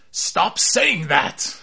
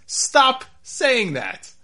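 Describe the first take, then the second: First: Slow, louder, exasperated plea; six-fingered man. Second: Higher, louder, very slow groan of annoyance; exasperated me. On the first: Movie villain begging someone to stop repeating a line, slow and exasperated. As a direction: drag it out, fed up with the repetition. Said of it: "the six-fingered man just goes". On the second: A fan watching the show, pleading higher and slower, worn out. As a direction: beg them to stop, drawn out and fed up. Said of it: "That was me as I watched this". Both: Retold or imitated.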